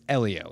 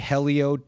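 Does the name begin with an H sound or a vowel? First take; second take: vowel; H sound. First: The name starts with a vowel sound. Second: The name starts with an H sound. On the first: The speaker calls it right. "If you pronounce the H, you're doing it incorrectly" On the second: The speaker calls it wrong. "that's not how you say his name"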